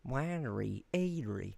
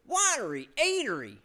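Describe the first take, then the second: First: It is said in a thick Carolinian accent. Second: It is said in the speaker's ordinary accent.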